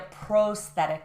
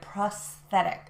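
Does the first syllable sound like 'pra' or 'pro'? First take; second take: pro; pra. First: The first syllable sounds like 'pro'. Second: The first syllable sounds like 'pra'. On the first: The speaker calls it wrong. "we don't say a prosthetic" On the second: The speaker calls it right. "we say a prosthetic"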